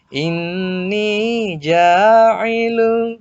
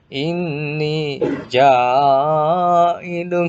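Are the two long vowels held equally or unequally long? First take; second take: equally; unequally. First: Both long vowels are held for two beats. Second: The two long vowels are held for unequal lengths. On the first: The speaker calls it right. "itu sama-sama dua ketukan" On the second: The speaker calls it wrong. "Salah juga seperti ini"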